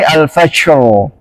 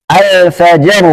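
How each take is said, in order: First: The j sound is softened toward sh. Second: The j sound is a firm, voiced stop. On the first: The speaker calls it wrong. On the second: The speaker calls it right.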